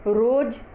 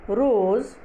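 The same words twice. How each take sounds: First: रोज़ ending in a hard j; wrong pronunciation. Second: रोज़ ending in a buzzing z; pronounced with nukta. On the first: Teacher shows the dotless misreading, रोज़ said with j. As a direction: say रोज़ as roj, no z. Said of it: "जो गलत होगा". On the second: Teacher reads her word list, रोज़ said with z. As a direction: say रोज़ with z, not j. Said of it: "ये dot हटा के". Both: Shown as a demonstration.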